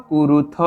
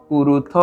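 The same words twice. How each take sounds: Both takes have the same delivery.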